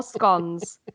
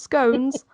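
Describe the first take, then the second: First: "scones" with a short O, like "skons"; short-o pronunciation. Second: "scones" with a long O, rhyming with cones; long-o pronunciation. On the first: Baker laying out the British debate, "scones" with a short O. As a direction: say "scones" to rhyme with dons. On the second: Baker laying out the British debate, "scones" with a long O. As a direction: say "scones" to rhyme with stones. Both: Shown as a demonstration. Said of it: "whether it's pronounced scones".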